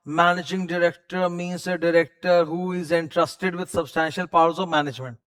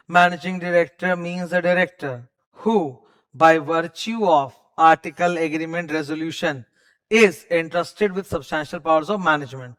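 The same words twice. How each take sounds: First: Said in the usual way. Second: Slow, drawn-out legal reading with pauses; stretched out reading. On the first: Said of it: "MD, पहले short में". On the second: Shown as a demonstration. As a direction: spell out every clause, taking your time. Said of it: "अब थोड़ा खींचेंगे". (खींच-खींच कर धीरे पढ़ना)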